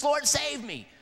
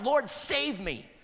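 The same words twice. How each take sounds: First: Higher, louder urgent cry for help. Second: Slow, drawn-out pleading prayer; slow plea. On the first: Retold or imitated. Peter crying out as he sinks, loud urgent cry. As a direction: call it out like a man sinking. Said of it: "Peter said that". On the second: Shown as a demonstration. Pastor modelling the cry for the congregation, slow pleading. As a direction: stretch each word as a plea. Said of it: "you need to cry out".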